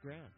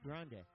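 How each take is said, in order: First: The name ends without a sounded final vowel. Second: The name ends with a sounded final vowel. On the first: The speaker calls it right. "So I think it's Grand" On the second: The speaker calls it wrong. "it's not pronounced Grande"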